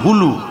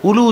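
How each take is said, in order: First: The word begins with an h sound. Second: The word begins directly with a vowel. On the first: The speaker calls it right. "উচ্চারণটা হবে হুলু" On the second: The speaker calls it wrong. "উলু বলবেন না এই কথাটা কিন্তু সবাই ভুল করে বলে উলু"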